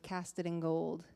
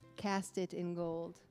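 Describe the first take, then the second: First: The words are slurred and run together. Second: Each word is clearly and separately enunciated. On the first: The speaker calls it wrong. "or else it just sounds like" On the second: The speaker calls it right. "I feel like I have to really enunciate that"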